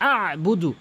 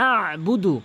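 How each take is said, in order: No difference in how they are said.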